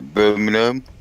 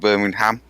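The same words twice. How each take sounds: First: The last syllable is reduced to a weak 'um'. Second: The last syllable is a full 'ham'. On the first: The speaker calls it right. "When there's an am, it's generally a er. Like Birmingham" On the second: The speaker calls it wrong. "not Birmingham"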